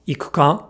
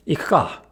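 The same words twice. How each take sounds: First: "Ikuka" with the u fully voiced, i-ku-ka; wrong full-vowel ikuka. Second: "Ikuka" with the u devoiced, ik-ka. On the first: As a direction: sound every vowel of "Ikuka". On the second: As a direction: drop the voice on the u of "Ikuka". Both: Shown as a demonstration.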